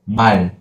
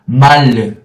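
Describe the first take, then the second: First: The word ends short, with a closed final. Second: The word ends with a lingering, trailing sound. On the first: The speaker calls it right. "We have to close. It is 말" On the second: The speaker calls it wrong. "It is not 말"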